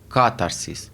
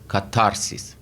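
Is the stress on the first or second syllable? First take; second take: first; second. First: The stress is on the first syllable. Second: The stress is on the second syllable. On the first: "روی آی اول میذارن و میشه کاتارسیس" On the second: "اگر بذاریم روی آی دوم میشه کاتارسیس"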